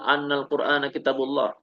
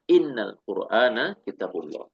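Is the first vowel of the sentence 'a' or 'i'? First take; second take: a; i. First: The first word starts with an 'a' vowel. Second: The first word starts with an 'i' vowel. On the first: The speaker calls it wrong. "Gak boleh kita membacanya" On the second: The speaker calls it right. "harus dengan kasrah"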